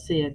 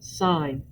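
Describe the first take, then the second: First: It has a short i vowel, like 'sin'. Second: It has a long i vowel, like 'sign'. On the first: The speaker calls it wrong. "do not call it sin" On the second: The speaker calls it right. "It is sine"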